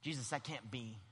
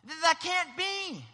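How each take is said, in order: First: Low, subdued protest; Peter. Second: Slow, high yell of protest; Peter yelling. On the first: Peter objecting to Jesus, quiet and low. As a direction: object softly, holding the volume down. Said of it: "Now, that's Peter here". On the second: Peter refusing what Jesus foretells, yelling. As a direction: yell it in drawn-out disbelief. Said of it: "literally starts to just yell". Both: Acted.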